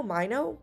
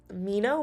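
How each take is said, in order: First: "Mino" said MY-no, rising like a question; second try at the name. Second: "Mino" said MEE-no, rising like a question; unsure name reading. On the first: Streamer retries a viewer's name, "Mino" as MY-no, questioning rise. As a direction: try "Mino" with an eye sound in the first syllable, asking. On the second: Streamer tests a viewer's name, "Mino" as MEE-no, questioning rise. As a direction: try "Mino" with a long ee in the first syllable, asking. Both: Shown as a demonstration.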